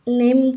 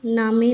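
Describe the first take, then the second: First: It is one syllable with a silent final e. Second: It has an open a and a sounded final e. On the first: The speaker calls it right. "हम नेम कहते हैं इसको" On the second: The speaker calls it wrong. "नामे नहीं"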